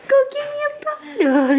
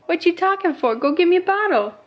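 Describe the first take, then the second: First: Put-on much higher, crying baby whine; squeaky baby voice. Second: Put-on higher, bossy baby voice; voicing the baby. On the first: Mom voicing baby Jackson wailing for his bottle. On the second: Mom voicing baby Jackson demanding a bottle.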